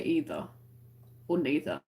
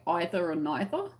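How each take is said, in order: First: Either, then neither, each with a long EE: EE-ther, NEE-ther; English way. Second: Either and neither starting with an EYE sound: EYE-ther, NYE-ther; American way. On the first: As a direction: say "either or neither" with first vowel as in "see". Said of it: "So I would say". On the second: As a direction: ask "either or neither" with first vowel as in "eye". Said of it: "is the American way". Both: Shown as a demonstration.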